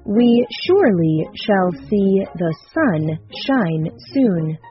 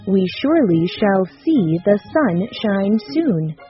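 First: It is said at a slow, careful pace. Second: It is said at a somewhat faster pace.

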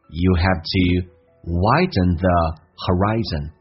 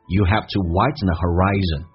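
First: The sentence is said at a slower pace. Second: The sentence is said at a faster pace.

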